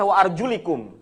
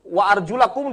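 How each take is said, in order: First: The vowel before the final syllable is i. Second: The vowel before the final syllable is a. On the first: "dibaca kasrah" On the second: "itu fathah"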